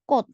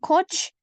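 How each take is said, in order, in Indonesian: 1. Kata ini berakhir dengan bunyi t. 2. Kata ini berakhir dengan bunyi ch. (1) "ini dibaca T" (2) "Jadi bukan coach"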